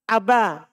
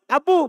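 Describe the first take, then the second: First: The word ends with an 'a' vowel. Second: The word ends with a 'u' vowel. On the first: The person is being called directly. The speaker calls it right. "Panggilnya Aba" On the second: The name is only being mentioned. The speaker calls it wrong. "jangan bilang Abu, Abu bukan"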